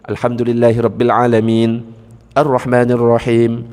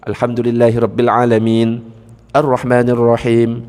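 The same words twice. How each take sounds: First: There is a stop after alamin before arrahman. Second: The same.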